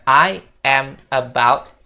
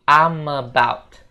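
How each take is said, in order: First: I and am are said as separate words. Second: I am is contracted into one syllable. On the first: The speaker calls it wrong. "Jadi bukan I am about" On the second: The speaker calls it right. "tapi I'm about"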